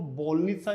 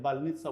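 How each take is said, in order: First: The first vowel sounds like a full 'o'. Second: The first vowel sounds like an 'a'. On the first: The speaker calls it wrong. "इसको बोलनित्सा नहीं बोलेंगे" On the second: The speaker calls it right. "बालनित्सा बोलेंगे"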